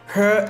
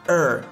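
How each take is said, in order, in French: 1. Le mot se prononce en entier, avec son h. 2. Le mot est réduit à un son faible et rapide.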